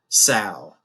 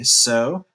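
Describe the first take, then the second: First: The vowel is the 'ow' sound. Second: The vowel is the 'oh' sound. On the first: It is the noun. "If you want to use the noun, then you would say sow" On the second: It is the verb. "If you want to use the verb, then you would say so"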